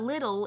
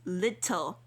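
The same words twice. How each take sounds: First: The middle T is soft and blurred. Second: The middle T is crisp and clearly released. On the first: The speaker calls it wrong. "So it's not little" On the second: The speaker calls it right. "enunciate your T's"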